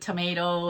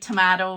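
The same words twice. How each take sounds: First: Tomato is said with a Canadian pronunciation. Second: Tomato is said with an Irish pronunciation. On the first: This is the local way the speaker is expected to use. "instead of tomato" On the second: This is the speaker's old habitual way. "I still say like tomato"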